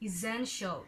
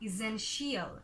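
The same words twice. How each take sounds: First: The ending is one short 'shul' syllable. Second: The ending is two syllables, like 'shee-al'. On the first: The speaker calls it right. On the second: The speaker calls it wrong.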